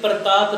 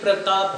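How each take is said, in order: First: It is said with a regional pronunciation. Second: It is said with the standard pronunciation. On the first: The speaker calls it wrong. "ये प्रताप नहीं है" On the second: The speaker calls it right. "ये प्रताप है"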